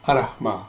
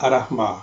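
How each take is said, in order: First: The r sound is short and single. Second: The r sound is short and single.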